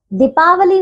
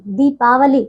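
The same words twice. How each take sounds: First: दीपावली with a short "di", high pitch; mispronunciation. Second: दीपावली with a long "dee"; correct pronunciation. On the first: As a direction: clip the first syllable of दीपावली. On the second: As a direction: hold the first syllable of दीपावली. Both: Shown as a demonstration. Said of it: "दीपावली नहीं".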